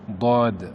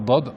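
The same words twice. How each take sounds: First: The vowel is long and held. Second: The vowel is short, not held. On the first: The speaker calls it right. "il y a une prolongation" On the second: The speaker calls it wrong. "On ne dit pas Dad"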